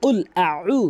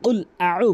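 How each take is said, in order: No difference in how they are said.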